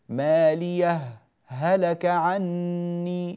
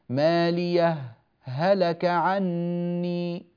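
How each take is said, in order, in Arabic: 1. سكت قصير بلا نفس يفصل بين الهاءين. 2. سكت قصير بلا نفس يفصل بين الهاءين.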